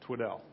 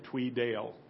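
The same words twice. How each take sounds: First: The name is said without a Southern accent. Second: The name is said in a Southern accent.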